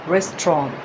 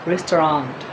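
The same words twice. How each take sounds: First: It is said in a British accent. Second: It is said in an American accent. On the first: "The British pronunciation is restaurant" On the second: "and the American restaurant"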